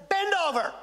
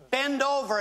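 First: "Bend over." said higher and louder, insisting; insistent repeated command. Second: Said in the usual way. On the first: Retold or imitated. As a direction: order her again, higher and louder, not taking no. Repeats the order to the woman.

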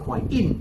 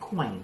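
First: "coin in" as coi-IN, stress on the IN; second-syllable stress. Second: "coin" run together as one syllable; merged sound. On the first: Teacher shows the wrong accent, "coin in" stressed late. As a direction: break "coin in" in two and hit the end. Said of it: "ถ้าเป็นพยางค์ที่สอง". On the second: Teacher explains first-syllable accent, "coin" merged into one. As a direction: say "coin" as a single falling syllable. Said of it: "มันก็รวบเสียงไปเลย". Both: Shown as a demonstration.

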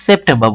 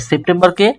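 First: সেপ্টেম্বর as "sep-them-ba", r dropped; silent final R. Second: Said in the usual way. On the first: Shown as a demonstration. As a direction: end সেপ্টেম্বর on "ba", without r. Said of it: "সেপ্টেম্বর বলবো". (সেপ্টেম্বর-কে "সেপ্ঠেম্বা" উচ্চারণ) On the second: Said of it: "সেপ্টেম্বরকে সেপ্টেম্বর বলবো".

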